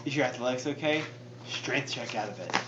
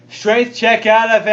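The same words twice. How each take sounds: First: Very soft, low undertone; hushed, low conspiratorial aside; trying to whisper. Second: Raised, openly audible voice; out-loud repeat. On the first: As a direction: keep it secret from the game master. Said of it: "I'm trying to whisper so Matt can't hear". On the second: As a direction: say it up for the whole table. Repeats hushed aside out loud. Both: Real, not acted.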